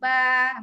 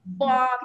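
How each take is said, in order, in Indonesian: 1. Vokalnya sedikit dibuat lebih terang ke arah 'e'. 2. Vokalnya adalah bunyi 'uh' yang tumpul dan netral. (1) "kita nak ba" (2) "bunyi baris atas ni ba macam pepat tau... kita tak nak"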